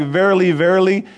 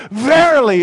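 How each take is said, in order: First: Said in the usual way. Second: "Verily" wykrzyczane wyżej i głośniej, z mocą; emphatic Verily. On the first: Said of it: "he said it with a great exclamation". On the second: Shown as a demonstration. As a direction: hit "Verily" high and loud with power. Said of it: "he said it with great power".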